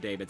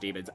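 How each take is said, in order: First: It sounds different from the word demons. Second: It sounds exactly like the word demons. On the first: This is the speaker's own habitual pronunciation. "I've always said daemons" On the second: This is the official pronunciation. "I know it's technically pronounced demons"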